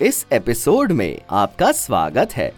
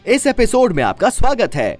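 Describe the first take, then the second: First: It is said with more expression and happiness. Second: It is said quickly with excited energy. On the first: "ये मैंने थोड़ा और expression के साथ और थोड़ा खुशी वाली फीलिंग के साथ" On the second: "ये मैंने फास्ट बोला और एक्साइटमेंट के साथ बोला।"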